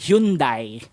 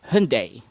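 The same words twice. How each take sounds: First: The Y sound is emphasized and drawn out. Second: The Y sound passes by quickly and lightly. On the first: The speaker calls it wrong. "placing a lot of emphasis on the Y" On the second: The speaker calls it right. "the Y goes by a little bit quicker"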